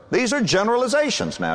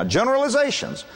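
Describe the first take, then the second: First: Said in the usual way. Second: The word generalizations repeated with a high, emphatic fall; stress on generalizations. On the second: Shown as a demonstration. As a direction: lean hard on generalizations as a warning.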